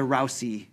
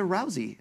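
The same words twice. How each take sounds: First: The middle consonant is a hissed S sound. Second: The middle consonant is a buzzed Z sound. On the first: The speaker calls it wrong. "It's pronounced as if it was a S" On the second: The speaker calls it right. "it really should be pronounced as if it was a Z"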